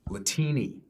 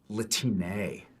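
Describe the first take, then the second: First: The word ends with an 'ee' sound. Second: The word ends with an 'eh' sound. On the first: The speaker calls it wrong. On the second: The speaker calls it right.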